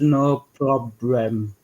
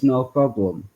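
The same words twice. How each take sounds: First: "no problem" drawn out in mock Asian accent, L and R swapped. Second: Said in the usual way. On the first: Joker imitating an Asian lawyer, slow mock Asian accent. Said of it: "They always get the L's and the R's". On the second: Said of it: "would it come out as".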